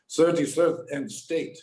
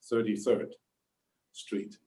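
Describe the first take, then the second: First: Imitated thick German accent, raised pitch; heavy German accent. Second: Said in the usual way. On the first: Grandfather giving the cabbie an address, heavy German accent. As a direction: put on a strong German accent. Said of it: "says with a heavy German accent". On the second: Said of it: "This is the address".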